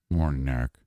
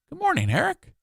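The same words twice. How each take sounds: First: It is said in a grumpy, flat tone. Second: It is said in a cheerful, friendly tone.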